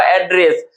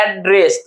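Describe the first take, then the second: First: Said in the usual way. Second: एड्रेस broken into two parts, एड and ड्रेस; teacher separating एड from ड्रेस in एड्रेस; split into syllables. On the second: Shown as a demonstration. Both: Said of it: "एड्रेस में क्या हो जाएगा".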